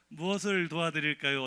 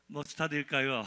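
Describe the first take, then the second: First: It is said at a normal, careful pace. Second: It is said fast, slurred together.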